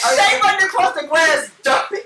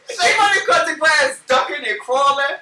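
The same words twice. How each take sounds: First: Laughing retelling. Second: Mock yell. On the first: Retold or imitated. Retelling the gunpoint scramble. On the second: Repeats the line louder.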